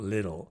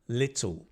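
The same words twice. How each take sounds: First: It is said in an American accent. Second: It is said in a British accent. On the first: "not American, not little" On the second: "I know it's British"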